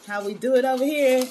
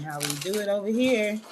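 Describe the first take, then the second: First: Higher and louder, punchy hype; hyped catchphrase. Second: Said in the usual way. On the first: Shown as a demonstration. Host hyping her Wellness Wednesday catchphrase, loud and high. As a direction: sell it like a show slogan.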